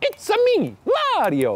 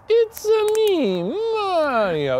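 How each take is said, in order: First: It is said lively with high energy. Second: It is said flatly with low energy.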